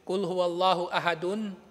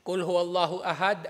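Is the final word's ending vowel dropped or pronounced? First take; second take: pronounced; dropped. First: The last word ends with its full vowel ending. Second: The last word ends without its final vowel. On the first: "Kung babasahin mo pati yung dulo niya" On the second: "hindi na pinopronounce yung dulo niya na haraka"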